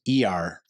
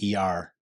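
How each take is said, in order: First: The stress falls on the letter E. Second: The stress falls on the letter R. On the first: "You put an emphasis on the E" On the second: "instead of the R"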